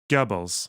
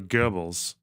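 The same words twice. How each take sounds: First: The first vowel is a rounded German 'ö'. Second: The first vowel sounds like an English 'er'. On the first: The speaker calls it right. "You got to say the O correctly" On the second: The speaker calls it wrong. "the way that an English person would say an R"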